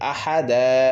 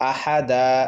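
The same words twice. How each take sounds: The two takes are said the same way.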